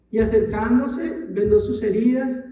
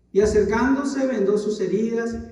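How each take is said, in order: Both takes have the same delivery.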